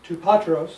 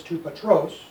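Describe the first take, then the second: First: "To patros" stressed on the first syllable, PA-tros; mistaken accent. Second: "to patros" stressed on the last syllable, pa-TROS; corrected accent. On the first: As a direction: punch "pa" in "patros". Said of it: "except it's to patros". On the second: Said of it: "is on patros". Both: Shown as a demonstration.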